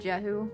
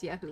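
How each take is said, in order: First: The name begins with a J sound. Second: The name begins with a Y sound. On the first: This is how English speakers say the name. "It's probably Jehu, I guess, in English" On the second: This is the Hebrew way of saying the name. "because the J is probably silent ... that's probably Hebrew pronunciation"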